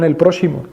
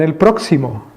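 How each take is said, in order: First: The middle consonant sounds like sh. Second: The middle consonant sounds like ks. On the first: This is the old way of saying it. "en el original español la X se pronunciaba como la sh. Es decir, los tatarabuelos decían" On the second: This is the modern way of saying it. "en la manera de pronunciar la X ahora en español dirían"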